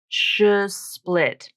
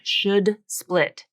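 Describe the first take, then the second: First: The D sound is left out entirely. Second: A full, released D sound is pronounced. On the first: "drop the D sound completely" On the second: "put the actual true D sound in there"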